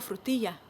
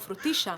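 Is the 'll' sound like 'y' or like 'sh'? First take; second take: y; sh. First: The ll is said like y. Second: The ll is said like sh, Argentine-style.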